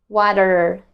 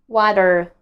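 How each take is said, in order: No difference in how they are said.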